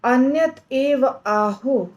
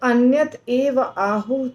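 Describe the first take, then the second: No difference in how they are said.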